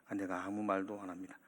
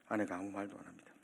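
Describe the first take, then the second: The two takes are said the same way.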